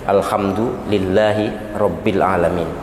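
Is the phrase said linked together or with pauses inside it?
paused. The words are split apart with small pauses. The speaker calls it right. "yang benar menurut uh, sosial media itu"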